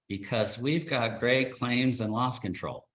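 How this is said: It is said flatly, with little enthusiasm. The speaker realizes every company says the same thing. "with a lot less enthusiasm"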